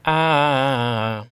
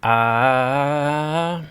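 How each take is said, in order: First: Long "Ah" gliding downward; falling tone. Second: Long "Ah" gliding steadily upward; rising tone. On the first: Teacher demonstrating the falling tone, "Ah" descending. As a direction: draw "Ah" out like a scale going down. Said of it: "Think of a musical scale going down". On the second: Teacher demonstrating the rising tone, "Ah" climbing. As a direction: draw "Ah" out like a scale going up. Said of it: "Think of a musical scale going up". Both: Shown as a demonstration.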